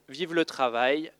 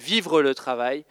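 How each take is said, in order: First: The first word is said without an R sound. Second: The first word is said with an R sound. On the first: "à chaque fois je dis Vive le Travail, parce que je ne prononce pas trop le R" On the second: "c'est Vivre le Travail"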